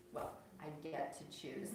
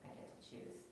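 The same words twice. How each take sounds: First: Slow, knowing "get" with a rise; knowing irony. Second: Said in the usual way. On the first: Shown as a demonstration. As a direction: tease that the choice is arranged. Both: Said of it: "But it may be a little bit, um, arranged".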